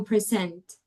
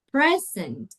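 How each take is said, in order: First: PreSENT, last syllable stressed; "present" as a verb, weight at the end; verb stress, second syllable. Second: PREsent, first syllable stressed; "Present" as a noun, weight up front. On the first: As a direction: hit the SENT of "present". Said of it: "talking about the verb". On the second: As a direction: hit the PRE of "Present". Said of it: "if you're talking about the noun". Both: Shown as a demonstration.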